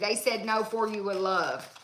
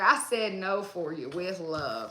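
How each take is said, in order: First: It is said in the speaker's normal voice. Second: It is said in a deep man's voice.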